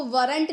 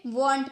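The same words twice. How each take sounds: First: "weren't" split into two syllables, WUH-runt; mispronounced weren't. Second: "weren't" as one syllable, like "wont"; corrected weren't. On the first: Teacher showing how not to read it, two-syllable "weren't". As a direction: sound out the R in "weren't" as a second syllable. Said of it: "इसको weren't नहीं पढ़ेंगे". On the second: Teacher giving learners the reading to use, one-syllable "weren't". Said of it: "weren't पढ़ेंगे". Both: Shown as a demonstration.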